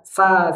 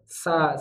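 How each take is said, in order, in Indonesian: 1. Mulut terbuka terlalu lebar saat vokal. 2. Mulut terbuka sedang saat vokal. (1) "Tidak berlebihan. Tidak sa" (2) "normal saja"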